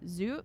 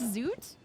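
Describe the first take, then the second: First: The name ends without a T sound. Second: The name ends with a clear T sound. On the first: "you probably don't pronounce the T" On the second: "I wasn't sure if he pronounced the T"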